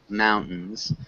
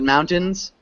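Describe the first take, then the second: First: The middle T sound is swallowed. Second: The middle T sound is fully pronounced. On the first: "sometimes you can swallow the T sound in this word. You don't have to pronounce it all the way" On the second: "But mountains works really well as well"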